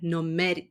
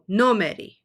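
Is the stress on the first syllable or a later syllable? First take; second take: later; first. First: The stress is on a later syllable. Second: The stress is on the first syllable. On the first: The speaker calls it wrong. "rather than" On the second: The speaker calls it right. "always puts the stress on the very first vowel"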